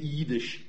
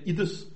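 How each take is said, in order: First: It has a long i and ends in sh. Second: It has a short i and ends in s. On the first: This is how most Polish dialects say it. "de fleste polske dialekter har et langt i. De siger jiddisch" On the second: This is how it was said in most of Lithuania. "iddes med kort i og med et s og ikke et sh til sidst"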